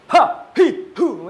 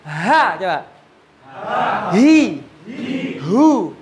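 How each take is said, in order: First: Each syllable ends abruptly with the breath held. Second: Each syllable ends with a light, released breath. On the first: The speaker calls it wrong. "Ini malah salah" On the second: The speaker calls it right. "Suara dilepas, enteng, nggak usah molor nyentak, biasa"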